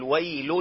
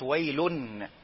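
First: The word ends without any n sound. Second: The word ends with a clear n sound. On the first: The speaker calls it right. "لا قول ويل" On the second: The speaker calls it wrong. "ما تنطقش التنوين، ما تقولش ويلن"

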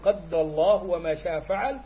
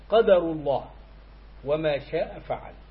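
First: The d sound in the first word is doubled. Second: The d sound in the first word is single.

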